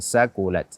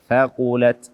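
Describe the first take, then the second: First: The word begins with an 's' sound. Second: The word begins with a 'th' sound. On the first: The speaker calls it wrong. "bukan sakulat" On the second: The speaker calls it right. "Ujung lidah menyentuh ujung gigi seri atas"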